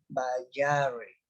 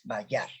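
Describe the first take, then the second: First: The word ends with an extra vowel after r. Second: The word ends on r with no vowel. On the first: The speaker calls it wrong. "si se pronunciara sería" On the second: The speaker calls it right. "es bayar"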